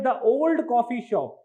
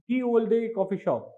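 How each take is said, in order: First: The first word is pronounced like 'the'. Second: The first word is pronounced like 'ye'. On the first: This is how the old spelling was originally read. "it used to pronounce that the old coffee shop" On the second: This is the modern reading of the old spelling. "they pronounce this Y E as ye"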